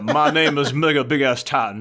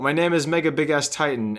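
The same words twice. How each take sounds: First: It is read in a weak, barely redneck accent. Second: It is read in a plain, ordinary accent.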